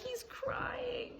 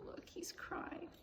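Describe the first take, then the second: First: High weepy. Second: Whisper. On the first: Piggy notices Gerald crying. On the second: Whispered aside. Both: Acted.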